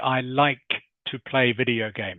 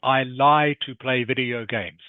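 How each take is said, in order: First: The K sound at the end of 'like' is heard. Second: The K sound at the end of 'like' is dropped. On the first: The speaker calls it right. "You must say" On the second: The speaker calls it wrong. "you were saying, I lie to play video games, which doesn't make sense in English"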